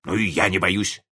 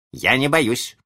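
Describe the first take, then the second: First: Match the boast, a touch piqued; defensive father. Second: Put-on high-pitched childish boast; defiant child. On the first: Father squabbling with his small son, defensive. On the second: Small son squabbling with his father, defiant. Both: A narrator's reading.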